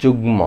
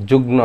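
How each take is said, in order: First: যুগ্ম said "jugmo" with a clear ম; যুগ্ম ending in a real m sound; correct form. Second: যুগ্ম said "jugno", the wrong way; wrong form. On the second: (ভুল উচ্চারণ: যুগ্ম "জুগ্নো") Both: Shown as a demonstration. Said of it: "যুগ্ম না".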